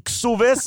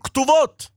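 First: It has s sounds and an o vowel, Ashkenazi style. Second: It has t sounds and an o vowel, Sephardi style.

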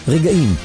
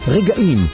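The two takes are said the same way.

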